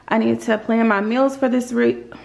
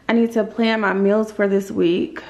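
No difference in how they are said.

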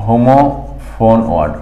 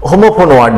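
First: হোমোফোন ওয়ার্ড said slowly and softly, each syllable drawn out; careful English term. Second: Said in the usual way. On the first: Shown as a demonstration. Teacher showing students the English term, slow and careful. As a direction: spell out হোমোফোন ওয়ার্ড slowly, a bit quieter, like a model word. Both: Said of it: "ইংরেজি হচ্ছে হোমোফোন ওয়ার্ড".

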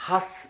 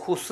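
First: "ഹസ്" as has with a short open a, not hoos; open "a" vowel. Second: "ഹുസ്" beginning like who; wrong vowel. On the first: Teacher correcting the start of husband, "ഹസ്" with an open a. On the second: Teacher warning against misreading husband, "ഹുസ്" with an oo vowel. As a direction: say "ഹുസ്" with an "oo" sound. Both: Shown as a demonstration. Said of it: "ഹുസ് എന്ന് വായിക്കരുത്".

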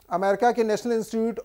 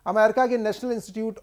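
Both takes have the same delivery.

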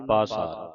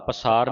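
First: ਪਾਸਾਰ as "paa-saar", falling; long first vowel. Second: ਪਸਾਰ as "pa-saar"; wrong short first vowel. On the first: Teacher correcting students, ਪਾਸਾਰ with long "paa". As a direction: stretch the opening "aa" of ਪਾਸਾਰ. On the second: Teacher warning students of a misreading, ਪਸਾਰ with short "pa". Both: Shown as a demonstration. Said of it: "ਪਸਾਰ ਨਹੀਂ ਪੜ੍ਹਨਾ".

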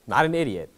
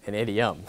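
First: "idiot" said clearly as ID-ee-ut, set against idiom; contrasting idiot. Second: "idiom" said clearly as ID-ee-um, ending in m; correcting to idiom. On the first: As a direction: stress "Not an idiot" to mark the wrong word. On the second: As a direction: land on the correct word "idiom". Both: Shown as a demonstration.

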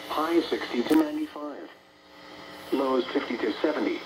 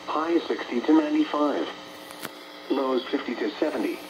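The two takes are said the same way.

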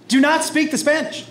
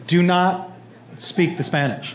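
First: Raised-pitch dad scolding; exasperated order. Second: Lower, halting dad command; firm order. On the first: Dad reminding son not to speak Spanish, exasperated order. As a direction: repeat the ban, pitched up in exasperation. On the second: Dad forbidding son to speak Spanish, low firm order. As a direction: lay it down with a pause after NOT. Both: Retold or imitated.

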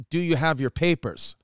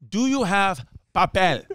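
First: Said in the usual way. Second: "papel" said the Spanish way in a mock Spanish accent; a light mock Spanish accent on "Do you have papel?". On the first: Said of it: "Jerry asked the worker in Spanish". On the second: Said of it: "She hit them with".

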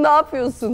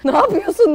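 First: Said in the usual way. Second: Laughing. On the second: Real, not acted. Teasing friend, laughing.

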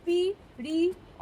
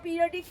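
First: periodic very slowly in four separate beats, পি, রি, অ, ডিক; long gaps between the syllables of periodic; split into syllables. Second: Said in the usual way. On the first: Shown as a demonstration. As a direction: count out periodic syllable by syllable, pausing after each. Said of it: "কটা syllable রয়েছে". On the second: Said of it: "আমরা periodic table যেমন বলি".

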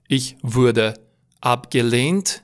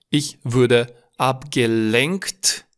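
First: Slow "abgelehnt" with a long e and no k; careful contrast. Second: Very slow "abgelenkt" with short e and clear nk; careful contrast. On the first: Teacher separating look-alike words, careful long e in "abgelehnt". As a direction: enunciate "abgelehnt" slowly, ending in -lehnt. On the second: Teacher separating look-alike words, careful nk in "abgelenkt". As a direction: spell out "abgelenkt" word by word, hitting -lenkt. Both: Shown as a demonstration. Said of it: "A nu se confunda cu abgelehnt".

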